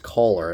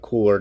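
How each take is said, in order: First: The first vowel sounds like 'coal'. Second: The first vowel sounds like 'cool'. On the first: The speaker calls it right. "like Coles, so just add an E R to that" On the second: The speaker calls it wrong. "I just keep pronouncing it wrong"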